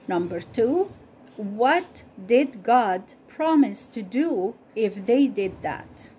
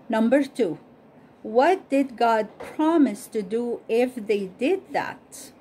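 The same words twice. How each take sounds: The two takes are said the same way.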